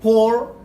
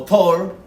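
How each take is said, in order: First: Slow "Thor" pronounced "por", as the attempted Icelandic; original-name pronunciation. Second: Emphatic "Thor" as Spanish "tor"; translated-name pronunciation. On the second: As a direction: say "Thor" louder and higher with a hard T, "Tor". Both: Shown as a demonstration. Gives both versions of the name.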